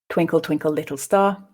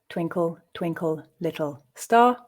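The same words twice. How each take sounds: First: The line is read at a faster pace. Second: The line is read at a slow pace. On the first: "at a more natural pace"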